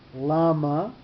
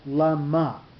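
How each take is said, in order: First: The stress is on the first syllable. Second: The stress is on the second syllable. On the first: It asks why. "with the accent on the lamed at the beginning" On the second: It asks for what purpose. "with the accent on the mem, on the middle letter"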